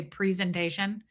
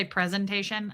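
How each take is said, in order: First: Presentation as PREE-zen-tation; own presentation pronunciation. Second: Presentation as PREZ-en-tation; short e in the first syllable of presentation; rejected presentation pronunciation. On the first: Host showing her own version, PREE in presentation. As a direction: say presentation with a long ee first. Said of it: "I say presentation". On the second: Host showing what she doesn't say, PREZ in presentation. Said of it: "I don't say". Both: Shown as a demonstration.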